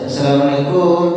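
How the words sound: It is drawn out, Indonesian style.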